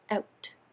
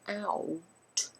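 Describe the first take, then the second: First: The word is said as one short syllable. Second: The word is drawn out into two syllables. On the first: The speaker calls it right. "meant to be just one syllable" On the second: The speaker calls it wrong. "You don't say"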